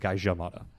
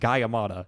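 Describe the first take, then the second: First: The middle consonant is an English J sound. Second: The middle consonant is not a J sound. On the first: The speaker calls it right. "It's with a J" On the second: The speaker calls it wrong. "it's pronounced Gayamada"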